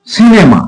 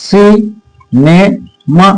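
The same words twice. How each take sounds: First: Said in the usual way. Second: "cinema" very slowly as সি, নে, মা; syllable by syllable. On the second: Shown as a demonstration. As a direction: break "cinema" into three, pausing after each syllable. ("Cinema" তিন ভাগে থেমে থেমে উচ্চারণ) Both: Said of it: "ট্রাইসিলেবল কোনটা".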